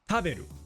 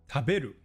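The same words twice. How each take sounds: First: The high pitch is on the first syllable. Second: The high pitch is on the middle syllable. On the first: "if we were at the start" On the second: "It's on the be in the middle"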